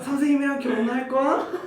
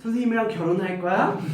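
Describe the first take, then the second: First: It is said in a put-on female voice. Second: It is said in the speaker's natural voice.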